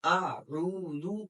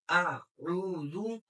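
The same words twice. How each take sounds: First: आऊज़ु very slow, long ऊ drawn out; आऊज़ु chanted with the vowel held and rising; stretched recitation. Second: आऊज़ु even slower, ऊ held long; आऊज़ु drawn out once more, rising at the end; stretched recitation. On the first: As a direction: pull the ऊ in आऊज़ु out for a full alif. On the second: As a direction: hold the ऊ of आऊज़ु long, hamza then ain clear. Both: Shown as a demonstration. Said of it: "आपने इसके अंदर फर्क करना है".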